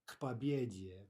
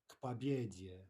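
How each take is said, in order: The two takes are said the same way.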